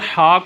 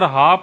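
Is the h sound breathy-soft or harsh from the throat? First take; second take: harsh; breathy-soft. First: The h is harsh, from deep in the throat. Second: The h is soft and breathy, like English h. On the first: The speaker calls it right. "हा को" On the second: The speaker calls it wrong. "अगर हा पढ़ते हैं तो डिक्शनरी बताती है कि यार ये आपने कुफरिया जुमला बोल दिया है"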